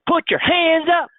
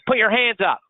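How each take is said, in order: First: It sounds loud and hyped. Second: It sounds harsh and threatening. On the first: It invites a crowd to party. "D Js" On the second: It is an order under threat. "bank robbers"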